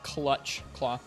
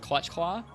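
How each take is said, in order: First: The phrase is said slowly. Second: The phrase is said quickly. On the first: The speaker calls it right. "I'll try and say it slower" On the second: The speaker calls it wrong. "when I say those words fast"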